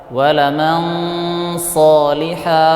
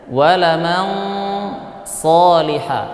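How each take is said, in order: The two takes are said the same way.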